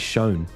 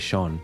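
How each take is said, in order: First: It is said with an American pronunciation. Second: It is said with an Australian pronunciation. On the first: "You say Shone" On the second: "We say, we say Sean for that word"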